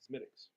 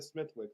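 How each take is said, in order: First: The name is said without 'th', like 'Smittix'. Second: The name is said as spelled, with 'th'. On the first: The speaker calls it right. "It's not pronounced the way it's spelled" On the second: The speaker calls it wrong. "I said, let me try that Smithwicks"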